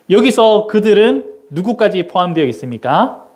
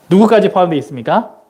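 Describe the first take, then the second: First: Said in the usual way. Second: 누구까지 pushed out first, the rest quick; rapid re-ask stressing 누구까지 with a rise; quicker repeat, stress 누구까지. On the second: Shown as a demonstration. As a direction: fire the question again fast, leaning on 누구까지.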